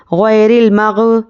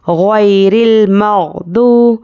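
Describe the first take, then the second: First: Slow غیر المغ- with an echoing bounce on gh; mistaken qalqala. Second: Slow غیر المغضوب, smooth gh and long held oo; correct madd, no bounce. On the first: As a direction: let a tiny vowel pop after gh in المغ-. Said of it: "مغ ایسا بولتے ہیں". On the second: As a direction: recite المغضوب without echo on gh, stretching oo. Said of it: "ایک الف کے برابر کھینچ کر پڑھیں گے". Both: Shown as a demonstration.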